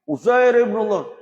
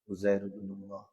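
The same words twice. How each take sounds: First: The phrase is said loudly. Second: The phrase is said softly. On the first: The speaker calls it wrong. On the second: The speaker calls it right. "Harusnya berlang"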